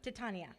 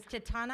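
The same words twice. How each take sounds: First: Titania with the added i, Ti-TA-ni-a; the misread name, Titania. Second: Titana said plainly as Ti-TA-na, no extra i; the right name, Titana. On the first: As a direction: say Titania with an extra i sound before the a. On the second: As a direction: say Titana with no i before the a. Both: Shown as a demonstration. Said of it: "I added an I in her name".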